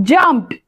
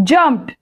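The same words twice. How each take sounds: The two takes are said the same way.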